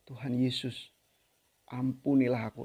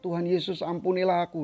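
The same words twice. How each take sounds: First: It is said slowly with deep feeling. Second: It is said flatly, without feeling. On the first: The words are truly felt. The speaker calls it right. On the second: The words are merely recited. The speaker calls it wrong.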